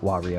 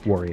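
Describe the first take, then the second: First: The name is said in a careful, precise way. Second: The name is said in a relaxed, casual way. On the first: The speaker calls it right. "instead of Wario" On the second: The speaker calls it wrong. "me saying Wario instead of"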